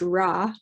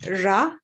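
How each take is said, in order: First: The r sound is smooth, without friction. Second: The r sound has extra friction. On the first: The speaker calls it wrong. "not quite like we say in English" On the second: The speaker calls it right. "there's a bit more friction in there somehow"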